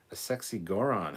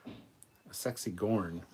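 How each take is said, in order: First: "Goron" said as kor-on, two syllables; reading "Goron" with a vowel between r and n; misread name. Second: "Gorn" said as one syllable, slowly; slow careful "Gorn", no vowel between r and n; corrected name. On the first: Real, not acted. Misreading the fan's message as "Goron" with two syllables. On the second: Shown as a demonstration. Correcting his own misreading, slow one-syllable "Gorn".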